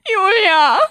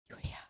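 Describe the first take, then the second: First: The name is said as if wailing. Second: The name is whispered.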